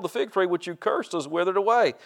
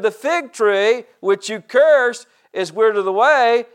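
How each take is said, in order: First: Said in the usual way. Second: Loud, high, slow restatement of scripture; emphatic preaching. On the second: Real, not acted. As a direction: proclaim it slowly, hitting each key word. Repeats the verse, preaching it.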